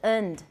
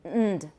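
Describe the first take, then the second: First: The word is said in its reduced form. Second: The word is said in its reduced form.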